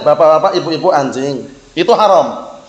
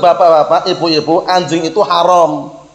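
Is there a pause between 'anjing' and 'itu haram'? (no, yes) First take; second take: yes; no. First: There is a break after 'anjing'. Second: 'Anjing itu haram' runs together without a break. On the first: The listeners are being called dogs. The speaker calls it wrong. "Kalau antum keliru titiknya, keliru komanya" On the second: Dogs are forbidden. The speaker calls it right. "Intonasinya tepat itu"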